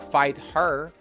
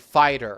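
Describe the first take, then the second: First: The h sound of her is clearly pronounced. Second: The h sound is dropped, linking like fighter. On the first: "Or fight her" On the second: "you would say fighter"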